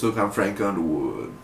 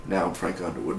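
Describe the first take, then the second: First: Said in the usual way. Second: Frank Underwood impression. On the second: Shown as a demonstration. Fan finally lands the Underwood impression, lower and hushed. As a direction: lower and softer, a Southern politician murmur.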